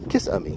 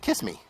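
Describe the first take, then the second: First: It sounds like three syllables, middle stressed. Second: It sounds like two syllables, 'kiss me'.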